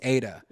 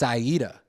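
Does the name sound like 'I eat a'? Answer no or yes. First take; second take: no; yes. First: The name does not sound like 'I eat a'. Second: The name sounds like 'I eat a'. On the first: The speaker calls it wrong. "Everybody always thinks Ada" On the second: The speaker calls it right. "but it's Aida"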